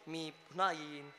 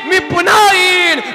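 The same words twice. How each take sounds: First: It is said plainly, without imitating anyone. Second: It is said as a dramatic, speech-style impression. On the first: The speaker calls it wrong. "जमलं नाही ना एवढं?" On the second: The speaker calls it right. "आता बघा, अध्यक्ष महोदय"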